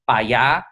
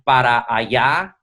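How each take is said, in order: First: The first word is cut to one syllable. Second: The first word is said in full, two syllables. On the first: This is rural Mexican Spanish. "you say pa allá" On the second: This is the standard form. "So you don't say pa, para allá"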